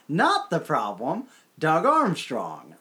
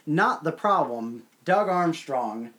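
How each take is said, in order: First: It is said with a sarcastic, pointed tone. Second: It is read flatly, without irony.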